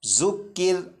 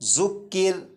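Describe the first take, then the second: No difference in how they are said.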